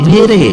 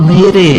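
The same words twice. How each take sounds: The two takes are said the same way.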